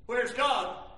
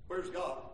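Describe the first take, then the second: First: The question put out at speaking volume; raised questioning. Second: Low, subdued question; quiet wondering. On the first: Preacher voicing an abandoned spouse's doubt, raised questioning. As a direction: ask it openly, with more force. Same doubt repeated louder. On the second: Preacher voicing an abandoned spouse alone at home, quiet wondering. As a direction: ask it softly, as if alone. Voicing the lonely believer's doubt. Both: Acted.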